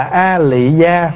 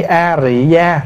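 First: "A Lị Gia" stretched out, L in "Lị"; L reading. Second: "A Rị Gia" stretched out, R in "Rị"; R reading. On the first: Monk comparing transliterations for the assembly, slow "A Lị Gia" with L. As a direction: slowly sound out "A Lị Gia" with an L. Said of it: "so ra giữa chữ A Lị và A Rị". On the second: Monk comparing transliterations for the assembly, slow "A Rị Gia" with R. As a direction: slowly sound out "A Rị Gia" with an R. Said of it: "chữ A Rị nó gần hơn". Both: Shown as a demonstration.

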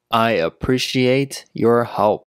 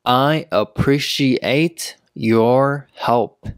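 First: Said in the usual way. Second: Slow, each word set apart; slow teaching pace. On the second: Shown as a demonstration. Teacher showing learners how to give thanks, slowly. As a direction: pause after each word so learners can follow.

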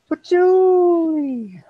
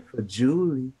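First: Loud slow sneeze shouting Julie. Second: Said in the usual way. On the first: Shown as a demonstration. Demonstrates his sneeze sound.

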